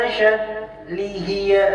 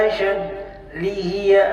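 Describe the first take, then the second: No difference in how they are said.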